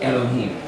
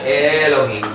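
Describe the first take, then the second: First: The first vowel is a short 'eh'. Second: The first vowel is not a short 'eh'. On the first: The speaker calls it right. "It's a short e sound, so it's eh Elohim" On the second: The speaker calls it wrong. "It's not Elohim"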